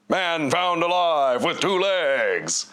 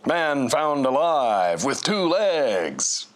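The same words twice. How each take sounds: First: It is read in a put-on character voice. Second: It is read in a natural voice.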